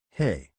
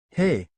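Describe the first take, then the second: First: Low, falling hey; demonstrated greeting. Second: Disbelieving. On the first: Uncle shows the boys how to greet a girl, low and assured. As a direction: drop the greeting low, as a simple statement. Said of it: "and just say". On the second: Naruto repeats the greeting lesson, in mild disbelief. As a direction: echo it as a doubtful question. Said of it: "repeated in disbelief". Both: A narrator's reading.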